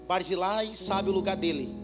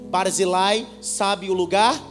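First: It is said at normal speed. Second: It is said slowly, word by word.

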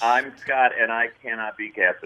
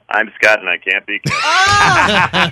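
First: It is said at a normal, quiet volume. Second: It is said very loudly.

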